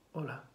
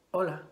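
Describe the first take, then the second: First: Más bajo y grave, casi para sí; hola suave. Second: Said in the usual way. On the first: Shown as a demonstration. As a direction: dilo con la voz recogida, muy suave. (en voz baja y suave) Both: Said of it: "muchas maneras de decir hola".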